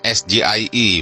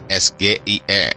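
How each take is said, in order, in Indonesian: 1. Huruf-huruf itu diucapkan dengan nama huruf bahasa Inggris. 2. Huruf-huruf itu diucapkan dengan nama huruf bahasa Indonesia. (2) "bukan ... dengan cara orang Indonesia"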